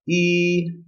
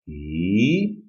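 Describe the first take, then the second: First: The pitch stays high and level. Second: The pitch rises from low to high. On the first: "The first tone is high level pitch" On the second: "The second tone is a rising tone"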